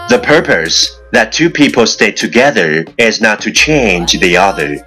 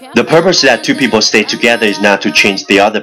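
First: The sentence is read at a normal pace. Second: The sentence is read very fast in one breath.

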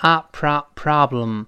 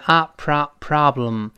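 First: It is said with an American accent. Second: The same.

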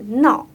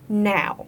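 First: It sounds like the Chinese syllable nao. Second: It has the English ow vowel. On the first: The speaker calls it wrong. "它不是闹啊，不是我们打闹的闹" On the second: The speaker calls it right. "应该是now"

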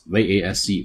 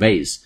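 First: It is pronounced with a British accent. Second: It is pronounced with an American accent. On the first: "英音念vase" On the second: "美音念vase"

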